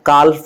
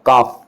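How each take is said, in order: First: The L sound is pronounced before the F. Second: The L is silent, with a long A sound. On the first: The speaker calls it wrong. "काल्फ नहीं पढ़ेंगे" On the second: The speaker calls it right. "इसको pronunciation क्या होगा, काफ"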